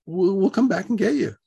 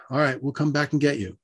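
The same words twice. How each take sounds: First: Higher-pitched, hesitant reassurance; stammered, higher promise to return; placating repeat. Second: Said in the usual way. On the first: Retold or imitated. Repeats promise after shocked What.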